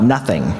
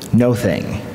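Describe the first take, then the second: First: It is said as one ordinary word. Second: It is said as two separately stressed words. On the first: God is nothing at all. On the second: God is not any particular thing.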